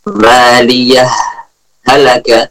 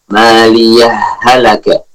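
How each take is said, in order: First: There is a brief stop between the words. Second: The two words are merged without a pause.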